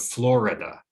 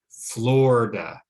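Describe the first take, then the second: First: All three syllables are pronounced. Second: The middle syllable is dropped.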